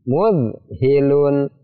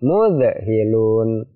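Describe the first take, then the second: First: The dh sound is held smoothly without bouncing. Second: The dh sound is released with a bouncing echo. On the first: The speaker calls it right. "Yang benar seperti apa?" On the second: The speaker calls it wrong. "tidak boleh seperti itu"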